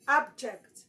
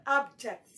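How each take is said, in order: First: The stress is on the first syllable. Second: The same.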